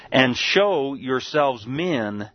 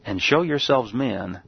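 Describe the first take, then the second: First: Each word drawn out slowly; "and show yourselves men" stretched out to land it; slow emphatic. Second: Said in the usual way. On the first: Shown as a demonstration. Preacher to congregation, slow drawn-out emphasis.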